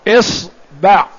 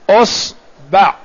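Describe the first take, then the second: First: The word begins with the vowel i. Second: The word begins with the vowel u.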